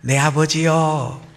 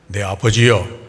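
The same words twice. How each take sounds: First: The voice is thin and delicate. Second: The voice is deep and rough. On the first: The younger, gentler son is speaking. "가냘프겠죠" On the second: The older, hairy son is speaking. "에서는 어떨까요?"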